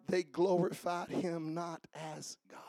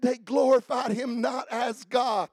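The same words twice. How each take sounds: First: Soft unvoiced whisper of they glorified him not as God; whispered scripture. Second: Shouted scripture. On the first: Pastor reading the verse to the church in a whisper. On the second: Acted. Pastor shouting the verse back to the church. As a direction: proclaim the verse at full voice.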